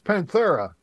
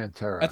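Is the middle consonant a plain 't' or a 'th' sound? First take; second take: th sound; plain t. First: The middle consonant is a th sound. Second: The middle consonant is a plain t. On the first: "It's like he's got a lisp" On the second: "he leaves the H off"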